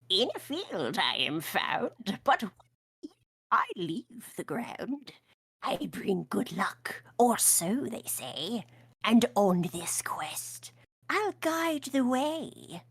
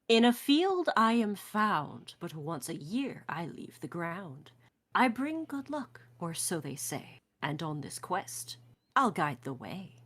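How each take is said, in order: First: It is read in a cackling witch voice. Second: It is read in her normal voice.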